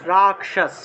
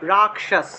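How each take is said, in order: No difference in how they are said.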